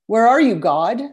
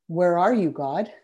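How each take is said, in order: First: The question is asked in an accusing, reproachful tone. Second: The question is asked in an open, inviting tone. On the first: The speaker assumes God has abandoned them. "it sounds like a judgment because you're assuming God has left you" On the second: The speaker invites God to show his presence. "Change the inflection on those same words and suddenly you're offering an invitation"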